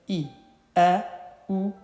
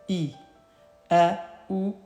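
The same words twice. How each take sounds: No difference in how they are said.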